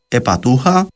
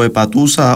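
First: An h sound comes before the last vowel. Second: An s sound comes before the last vowel.

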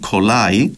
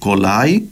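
First: The word begins with a voiceless k sound. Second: The word begins with a voiced g sound. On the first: This is the standard Turkish form. "στην πρότυπη" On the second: This is the Cypriot Turkish form. "στην Κυπριακή Τουρκική"

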